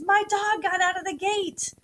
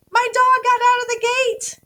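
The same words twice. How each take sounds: First: Said in the usual way. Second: Much higher and louder, a panicked yell; nervous yell. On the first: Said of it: "So when I write that sentence". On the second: Retold or imitated. Owner calling out as the dog escapes, panicked yell. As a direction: shout it like the dog just ran off. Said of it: "So I might yell something like".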